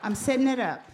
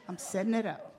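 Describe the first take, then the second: First: Laughing, a bit louder. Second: Said in the usual way. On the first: Real, not acted. Wife answering her husband's prompt, laughing. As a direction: laugh through it while brushing off the husband.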